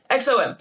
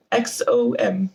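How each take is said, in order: First: Said in the usual way. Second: "X O M" said slowly, each letter stretched out; odd drawn-out delivery. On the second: Shown as a demonstration. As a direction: drag out "X O M" letter by letter. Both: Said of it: "Why did I say it like that?".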